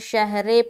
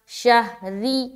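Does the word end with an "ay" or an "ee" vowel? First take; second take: ay; ee. First: The last vowel is a closed "ay" sound. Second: The last vowel is a long "ee" sound. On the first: The speaker calls it wrong. "बाज़ औक़ात लोग मजहूल पढ़ते हैं, शहरे पढ़ते हैं" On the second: The speaker calls it right. "शहरी री यानी कि आर आई री"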